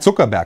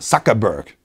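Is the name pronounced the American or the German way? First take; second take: German; American. First: The name is said with German pronunciation. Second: The name is said with American pronunciation. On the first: "Ich sage Zuckerberg" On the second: "wie der Amerikaner sagt"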